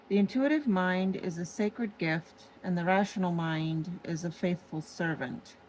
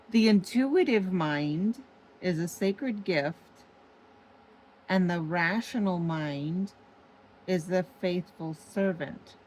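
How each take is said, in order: First: Said in the usual way. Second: Deliberate re-reading. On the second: Shown as a demonstration. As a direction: read it out deliberately, phrase by phrase, letting "intuitive" stand out. Rereads the quote for emphasis.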